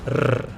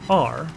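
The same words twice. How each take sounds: First: The R is a hard, strongly trilled sound. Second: The R is a smooth English-style sound. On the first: "In Estonian you say the hard R. And by this I mean R" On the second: "in English you say R"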